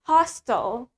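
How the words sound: The word is said in an American accent. "in American, sedangkan di American accent, we say it hostile"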